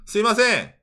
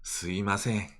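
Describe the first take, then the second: First: Said lightly, as a call for attention. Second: Said softly, in an apologetic tone. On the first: The speaker is getting someone's attention. "excuse me의 스미마생은" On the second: The speaker is apologizing. "I'm sorry의 스미마생은"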